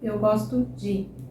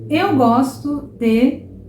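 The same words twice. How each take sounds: First: The sounds are reduced and run together. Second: Every sound is said fully and clearly. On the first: It is how the phrase sounds in everyday speech. "no meu dia a dia, eu vou falar eu gosto de" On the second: It is said slowly so learners catch every word. "Eu estou fazendo aqui por uma questão de clareza"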